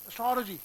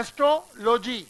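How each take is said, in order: First: The first vowel is short and barely touched. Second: The first vowel is said fully and clearly. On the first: The speaker calls it right. "ए को आधा बोलिए" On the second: The speaker calls it wrong. "आप बोलते हो एस्ट्रोलॉजी"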